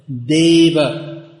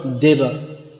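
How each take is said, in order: First: The first vowel is held long. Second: The first vowel is cut short. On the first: The speaker calls it right. "It's always pronounced long" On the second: The speaker calls it wrong. "There's no short form of that"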